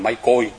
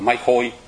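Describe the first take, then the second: First: The second word starts with a hard k sound. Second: The second word starts with a raspy kh sound. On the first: This is the original form of the word. The speaker calls it right. "đúng ra mình phải nói là mái côi" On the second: This is the common reading people use. The speaker calls it wrong. "thì người ta đọc là mái khôi"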